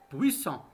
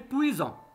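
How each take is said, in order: First: The middle consonant is a hissing s sound. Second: The middle consonant is a buzzing z sound. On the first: "pour qu'il se prononce S, il faut ajouter un autre S" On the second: "si on n'a pas mis deux S, il va se prononcer puissant"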